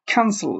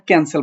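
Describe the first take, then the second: First: "ক্যান্সেল" with a strong puff of air on K, falling at the end; aspirated K. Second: Said in the usual way. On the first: Shown as a demonstration. Teacher correcting learners, "ক্যান্সেল" with an aspirated K. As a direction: hit the K of "ক্যান্সেল" with a burst of breath. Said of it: "বলবে ক্যান্সেল". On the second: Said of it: "তুমি আর ক্যান্সেল বলতে না".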